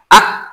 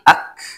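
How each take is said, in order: First: The final consonant is held without breath flowing. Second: Breath flows out audibly after the final consonant. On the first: The speaker calls it wrong. "Tidak begini, itu tidak" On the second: The speaker calls it right. "ya itu kaf mati ak"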